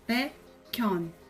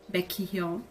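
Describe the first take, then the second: First: The k runs into the second syllable. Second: The k and h are sounded separately. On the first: The speaker calls it right. "rouba a batim anterior caso tenha... Então você fala Baekhyun" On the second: The speaker calls it wrong. "você não vai falar Baekhyun... porque é ruim"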